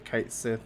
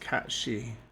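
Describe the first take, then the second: First: The first syllable sounds like 'kite'. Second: The first syllable sounds like 'cat'. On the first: The speaker calls it wrong. "a lot of people say Kite Sith" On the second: The speaker calls it right. "the correct way, I believe, to pronounce it is Katshi"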